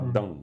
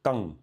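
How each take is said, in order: First: The word begins with a voiced D sound. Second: The word begins with a voiceless T sound. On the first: The speaker calls it wrong. "c'est pas dang" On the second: The speaker calls it right. "Tang, c'est un T"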